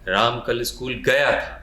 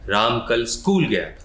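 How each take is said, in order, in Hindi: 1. शब्द "गया" पर ज़ोर है। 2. शब्द "स्कूल" पर ज़ोर है।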